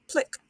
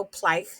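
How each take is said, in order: First: PLICK with short I, rhyming with "sick"; short vowel sound. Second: PLICK misread as "plike"; mispronounced long vowel. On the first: Teacher correcting the long-vowel reading, short-vowel "plick". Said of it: "it's plick". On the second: Teacher showing there's no such reading, mispronounced "plike". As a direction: say "plick" wrongly, rhyming with "like". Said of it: "There's no". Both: Shown as a demonstration.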